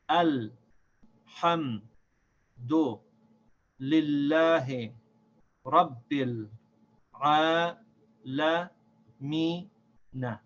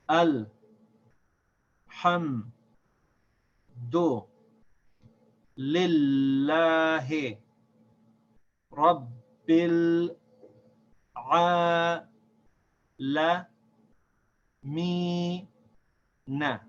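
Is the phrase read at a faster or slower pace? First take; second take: faster; slower. First: The phrase is read at a quicker pace. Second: The phrase is read slowly, syllable by syllable.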